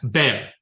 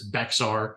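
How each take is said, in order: First: The name is said the Spanish way. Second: The name is said the Yankee way. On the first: This is how the original Spanish settlers said it. "which is how the Spanish pronounced it" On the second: This is how an outsider from the North says it. "If you're a Yankee coming down here, it's Bexar"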